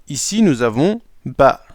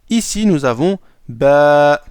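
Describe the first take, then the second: The two takes are said the same way.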